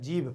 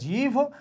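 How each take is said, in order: First: The word ends with a plain, unaspirated b sound. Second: The word ends with a breathy, aspirated bh sound. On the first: This is the mother-tongue form. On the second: This is the standard Hindi form.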